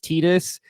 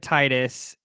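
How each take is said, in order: First: The first syllable does not sound like 'tide'. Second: The first syllable sounds like the word 'tide'. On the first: This is the officially stated pronunciation. "apparently Square Enix has has said officially it's Titus" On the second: The name evokes the tides, fitting a water theme. "I always said it Titus in my in my brain, like because it's like the tide"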